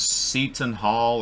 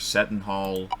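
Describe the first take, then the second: First: "Seton" said SEE-tun; Seton with long EE. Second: "Seton" said SET-un; Seton with short E. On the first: Host tries an unfamiliar team name, "Seton" as SEE-tun. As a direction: say "Seton" with a long ee in the first syllable. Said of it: "Seton Hall or Seton Hall". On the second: Host offers another way to say the team name, "Seton" as SET-un. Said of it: "or Seton Hall". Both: Shown as a demonstration.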